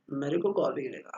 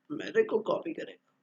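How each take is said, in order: First: Said in the usual way. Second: A whispered, half-voiced grumble under the breath; a private whispered complaint. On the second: Real, not acted. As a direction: mutter it to yourself, nearly unvoiced. Grumbling aside about being copied.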